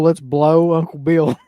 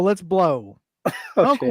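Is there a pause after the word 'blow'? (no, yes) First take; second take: no; yes. First: The words run on with no pause after 'blow'. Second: There is a clear pause after 'blow'. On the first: Uncle Bill is the object of the verb. The speaker calls it wrong. "If I just read that as a run-on sentence" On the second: Uncle Bill begins a new sentence. The speaker calls it right. "that's why punctuation is important"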